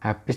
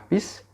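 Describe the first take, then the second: First: The word begins with an h sound. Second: The word begins without an h sound. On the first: This is the standard form. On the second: This is the slang form.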